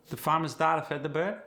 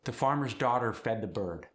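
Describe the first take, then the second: First: "farmer's", "daughter", "bird" with the R dropped, higher voice; non-rhotic R. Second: Said in the usual way. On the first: Shown as a demonstration. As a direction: leave out the R sounds. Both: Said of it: "The non-rhotic R".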